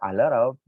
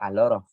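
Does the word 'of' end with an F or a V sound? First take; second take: V; F. First: The word 'of' ends with a V sound. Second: The word 'of' ends with an F sound. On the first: The speaker calls it right. "va a tener pronunciación de V" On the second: The speaker calls it wrong. "no van a decir a lot of"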